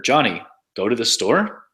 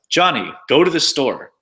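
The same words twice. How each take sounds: First: The pitch sounds like a question. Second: The delivery sounds like a command. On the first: It asks something. "There's questions like" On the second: It orders someone to act. "commands like"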